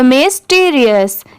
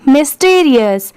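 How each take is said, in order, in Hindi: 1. शब्द धीरे, हिस्सों में बोला जाता है। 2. शब्द तेज़ी से, एक ही बार में बोला जाता है।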